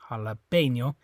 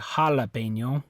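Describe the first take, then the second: First: The stress is on the third syllable. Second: The stress is on the first syllable. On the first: The speaker calls it right. "So it's this E" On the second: The speaker calls it wrong. "it's not this A. You don't say jalapeno"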